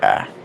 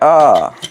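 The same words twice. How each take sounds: First: It is said more softly. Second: It is said more loudly.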